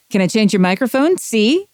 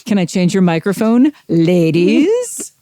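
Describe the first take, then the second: First: Tough-guy mobster, fast and high; gangster movie voice. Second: Sleazy pickup-line voice, rising at the end; oily smooth seducer. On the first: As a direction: threaten like an old movie gangster. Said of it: "turn anything into a gangster film". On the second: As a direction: lay on the sleaze. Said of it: "sleazy pickup line by adding the word ladies". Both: Shown as a demonstration.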